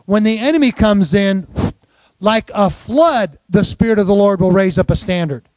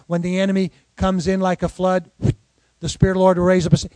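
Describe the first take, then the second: First: The pause falls after the words comes in. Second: The pause falls after the word flood.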